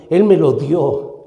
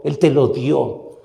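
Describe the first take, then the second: First: Said in the usual way. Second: "te" leaned on, the line said slowly and a little softer; stress on te. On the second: Shown as a demonstration. Preacher turning the point to each listener, stressed "te". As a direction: press the word "te" to point at the listener.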